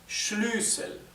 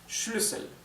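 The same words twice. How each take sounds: First: The first vowel is long. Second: The first vowel is short. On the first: "la U se pronunciaría más larga, sería Schlüssel" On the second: "es una U corta"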